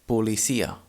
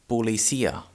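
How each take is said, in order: The two takes are said the same way.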